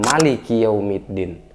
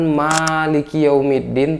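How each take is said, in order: First: The first vowel of Maliki is short. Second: The first vowel of Maliki is long. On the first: The king of the Day of Judgment. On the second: The one who owns the Day of Judgment.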